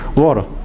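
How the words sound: The middle consonant is a quick tap. "pero en Estados Unidos, ¿cómo se dice? ... como R del español"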